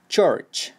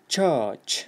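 First: The r after the vowel is clearly pronounced. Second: The r after the vowel is dropped. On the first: "Yoki amerikanchada church" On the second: "Britishcha bo'ladi u"

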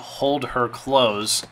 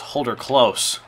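First: The first part is said as two words. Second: The first part is said as one word. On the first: The speaker calls it wrong. "His name isn't Hold Her Close" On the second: The speaker calls it right. "It is Holder Close"

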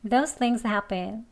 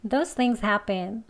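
Both takes have the same delivery.

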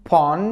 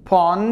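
Both takes have the same delivery.

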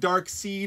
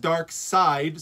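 First: The second part rhymes with seed. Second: The second part rhymes with side. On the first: The speaker calls it wrong. "It's not Dark Seed" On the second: The speaker calls it right. "it's Dark Side. So just think of Star Wars"

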